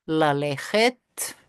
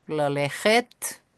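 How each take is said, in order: First: "lalechet" drawn out slowly, rising at the end; slow demo. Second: "lalechet" again drawn out slowly, rising; slow repeat. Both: Shown as a demonstration.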